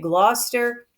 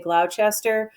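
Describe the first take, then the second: First: It is said the British way. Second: It is said the American way.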